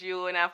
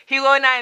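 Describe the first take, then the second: First: Girona with a soft opening glide, "joo-ROH-na"; softened "joo-ROH-na" for Girona; own pronunciation. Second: Girona with a breathy H, "hee-ROH-na", loud and high; raised, emphatic "hee-ROH-na" for Girona; Spanish pronunciation. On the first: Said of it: "Girona for me". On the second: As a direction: punch out Girona the Spanish way, starting with an H. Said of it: "Girona in Spanish". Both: Shown as a demonstration.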